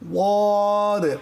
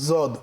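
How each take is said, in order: First: It begins with a heavy, emphatic d sound. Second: It begins with a z sound. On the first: The speaker calls it right. "এর মাখরাজ হচ্ছে জিহ্বার গোড়ার কিনারা উপরের মাড়ির দাঁতের গোড়ার সঙ্গে লাগিয়ে" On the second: The speaker calls it wrong. "না জদ"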